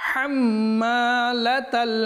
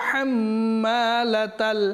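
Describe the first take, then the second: No difference in how they are said.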